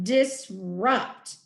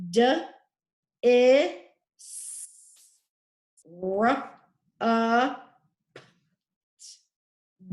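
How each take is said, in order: First: Said in the usual way. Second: "D, I, S, R, U, P, T" as isolated speech sounds; sounding out. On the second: Shown as a demonstration. Teacher sounding out disrupt for the class, segmented. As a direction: say each sound of "D, I, S, R, U, P, T" separately, with long gaps.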